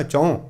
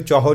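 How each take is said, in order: First: ਚੌਂ with a nasal ending on the H; nasalised reading. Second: ਚੌਹਾਂ said in two syllables, chau-haan; wrong reading. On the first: Preacher modelling the numeral for the congregation, ਚੌਂ nasalised. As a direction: say ਚੌਂ as chahun, ending through the nose. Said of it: "ਟਿੱਪੀ ਨਾਲ ਲਾ ਕੇ ਪੜ੍ਹਨਾ ਹੈ". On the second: Preacher showing the wrong reading, ਚੌਹਾਂ in two syllables. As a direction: misread ਚੌਹਾਂ with a full second syllable. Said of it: "ਨਹੀਂ ਪੜ੍ਹਨਾ". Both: Shown as a demonstration.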